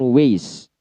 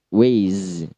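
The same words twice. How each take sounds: First: The word ends with an s sound. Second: The word ends with a z sound. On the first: "diasimilasikan S semua" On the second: "way itu Z"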